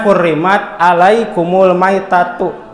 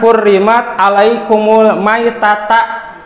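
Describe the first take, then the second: First: The last word ends with a 'u' vowel. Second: The last word ends with an 'a' vowel. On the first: The speaker calls it right. "Seharusnya di dalam Qur'annya" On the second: The speaker calls it wrong. "saya salah-salah harokat"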